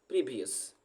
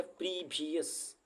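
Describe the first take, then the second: First: Said in the usual way. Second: "previous" slowly, with the first syllable stretched; slow drawn-out word. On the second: Shown as a demonstration. Teacher spelling out a word for learners, slow "previous".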